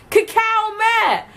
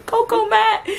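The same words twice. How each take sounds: First: "Cacao matte" said kuh-KOW MAT, drawn out; correct cacao. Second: "Coco Matt" said KOH-koh MAT, high and questioning; wrong cocoa reading. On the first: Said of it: "it said cacao and it didn't say cocoa". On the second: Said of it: "Have you seen C". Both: Retold or imitated.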